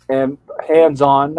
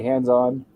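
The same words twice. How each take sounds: First: Hands-on stretched out slow and a bit louder; slow stressed hands-on. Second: Said in the usual way. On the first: Shown as a demonstration. Pointing out Mary Ann's behaviour, stressing hands-on slowly. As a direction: lean on hands-on, drawn out. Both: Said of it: "I'll put it that way".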